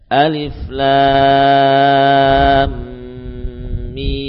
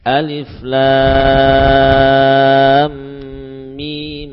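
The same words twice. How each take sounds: First: The vowel of the final mim is held long. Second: The vowel of the final mim is kept short. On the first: "Mim tetap dibaca dengan 6 harokat" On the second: "bisa dibaca dengan 2 harokat"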